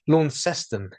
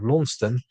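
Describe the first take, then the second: First: The name is pronounced as spelt. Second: The name is not pronounced as spelt. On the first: This is the name of the city in Tasmania. "Launceston is how they pronounce it" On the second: This is the name of the town in Cornwall. "spelt the same as the Cornish uh, town of Launceston"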